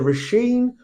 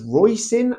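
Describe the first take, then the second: First: The name does not rhyme with hoisin. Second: The name rhymes with hoisin. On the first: The speaker calls it right. "which is a beautiful Irish name" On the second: The speaker calls it wrong. "as in Hoisin"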